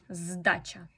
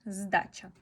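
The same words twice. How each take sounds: The two takes are said the same way.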